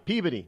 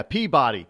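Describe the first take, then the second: First: Peabody with a swallowed middle, PEA-buh-dee; local Peabody. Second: Peabody with a full "bah" in the middle; spelled-out Peabody. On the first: Local giving the town's name, Peabody as PEA-biddy. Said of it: "they call it Peabody here". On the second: Outsider correcting the local name, Peabody as PEA-BAH-dee. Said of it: "It is Peabody". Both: Shown as a demonstration.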